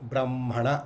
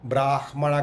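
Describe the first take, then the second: First: The m sound comes before the h sound. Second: The h sound comes before the m sound. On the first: The speaker calls it right. "ఒత్తు ముందు పలికి తర్వాత అక్షరాన్ని పలకాలి" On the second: The speaker calls it wrong. "కాదు"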